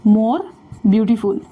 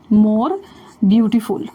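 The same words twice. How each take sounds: The two takes are said the same way.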